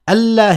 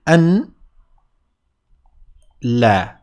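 First: The n merges into the l, giving one word. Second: The n is pronounced before a separate l word. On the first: "when you pronounce them together, they sound like ألا" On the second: "ألا here was essentially أن لا"

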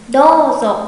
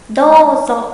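No difference in how they are said.

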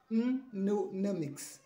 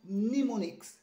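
First: The M at the start is pronounced. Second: The M at the start is silent. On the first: The speaker calls it wrong. "You don't have to say mnemonics" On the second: The speaker calls it right. "The M is silent"

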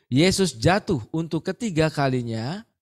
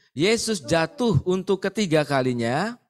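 Both takes have the same delivery.

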